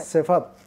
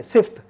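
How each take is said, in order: First: Si-fat in two syllables; correct pronunciation. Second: Sift as one syllable, ending in a FT cluster; mispronunciation. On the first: Teacher corrects the common error, two-syllable सिफत. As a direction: put an A between F and T in सिफत. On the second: Teacher quotes a common mistake, one-syllable सिफ्त. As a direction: run F into T in सिफ्त, no vowel between. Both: Shown as a demonstration. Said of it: "सिफ्त गलत है".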